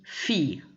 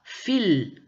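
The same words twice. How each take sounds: First: Fille as fee-y, with no L; correct silent L. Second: Fil with a clearly sounded final L; wrong L pronounced. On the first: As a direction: let fille glide off into y, dropping the L. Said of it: "on dit". (« fille » prononcé fi-ye, sans le L) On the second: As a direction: end fil on a firm L, as a wrong example. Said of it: "on ne dit pas". (« fil » avec le L bien prononcé) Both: Shown as a demonstration.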